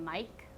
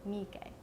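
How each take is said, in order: First: One syllable, like the English name Mike. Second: Three even syllables with a long first vowel. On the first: The speaker calls it wrong. "A lot of people pronounce it wrong by calling him Mike" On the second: The speaker calls it right. "It's Miike because he's Japanese"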